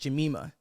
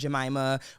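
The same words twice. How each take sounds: First: The name is said in a Haitian accent. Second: The name is said in an American accent. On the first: This is how the name owner says it. The speaker calls it right. "like with a Haitian accent" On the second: This is how other people say the name. The speaker calls it wrong. "people pronounce my name Jemima, would say Aunt Jemima"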